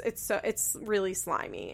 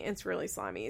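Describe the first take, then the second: First: Said in the usual way. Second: Quiet repeat. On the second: Shown as a demonstration.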